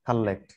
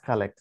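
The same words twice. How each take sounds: First: The middle l sound is held long. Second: The middle l sound is short. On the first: The speaker calls it wrong. "Not কালেক্ট" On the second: The speaker calls it right. "It's কালেক্ট"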